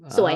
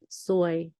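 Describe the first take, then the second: First: The pitch dips down and then rises. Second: The pitch stays level and flat. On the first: Beautiful. "it rising tone... you go down and then... you put it up" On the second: Bad luck. "it middle tone, just go flat"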